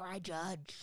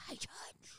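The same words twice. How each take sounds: First: Mock-stern "I judge", voiced in full; judgmental. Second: Mock-stern whisper on "I judge"; whispered judgment. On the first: Retelling a rebuke to the finger-snapping producer, judgmental. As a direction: deliver a voiced, judging declaration. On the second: Repeating the rebuke to the finger-snapping producer, whispered. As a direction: whisper the verdict under your breath.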